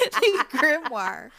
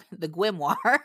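First: "The Grimoire" said slowly and laughing, higher and louder; laughing slow repeat. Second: Said in the usual way. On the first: Shown as a demonstration. Repeating the word she fumbled, slow and laughing. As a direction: drag out "The Grimoire" through a giggle, amused at own slip. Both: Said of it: "to go look for the Gwim".

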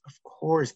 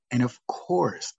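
First: Course repeated higher with a knowing fall; stress on course. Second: Said in the usual way. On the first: Shown as a demonstration. Teacher stressing course about the late student. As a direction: lean on course the second time, pitched up.

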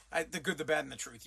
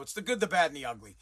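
First: Low mumbling imitation of the clip; mocking dumb voice. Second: Said in the usual way. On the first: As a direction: parrot the wrong line back, low and dopey. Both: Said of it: "You're a moron".

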